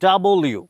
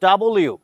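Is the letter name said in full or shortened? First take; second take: full; full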